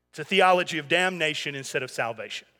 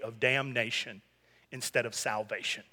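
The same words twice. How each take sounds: First: Said in the usual way. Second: Hushed quote, pitch dropped low; quoted theologian, voice sunk low; quiet, low aside. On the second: Retold or imitated. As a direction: murmur it, low and soft. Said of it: "he said".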